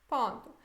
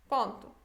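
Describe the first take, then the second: The two takes are said the same way.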